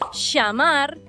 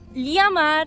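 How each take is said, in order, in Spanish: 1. La ll suena como la sh en inglés. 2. La ll suena como una ly palatal. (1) "como si fuese C H en tu caso y S H en el nuestro" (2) "como si fuese L H en tu caso y li para nosotros"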